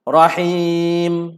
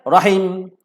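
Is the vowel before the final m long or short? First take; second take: long; short. First: The vowel before the final m is lengthened. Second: The vowel before the final m is cut short. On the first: The speaker calls it right. "itu panjanglah tu dua harakat" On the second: The speaker calls it wrong. "rahim dia matikan terus tak boleh"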